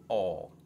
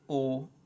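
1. La vocale si dice con la bocca bene aperta. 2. La vocale si dice chiusa, con le labbra arrotondate e strette. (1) "O, open" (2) "with the closed accent"

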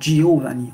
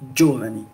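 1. Le i après G se prononce comme une voyelle. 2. Le i après G est muet, ce qui donne jo. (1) "on ne va pas lire Giovanni" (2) "Le i disparaît"

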